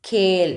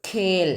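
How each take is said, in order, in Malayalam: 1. k ഒറ്റ അക്ഷരത്തിൽ ആസ്പിരേറ്റ് ചെയ്ത് ഉച്ചരിക്കുന്നു. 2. k ഒറ്റ അക്ഷരത്തിൽ ആസ്പിരേറ്റ് ചെയ്ത് ഉച്ചരിക്കുന്നു.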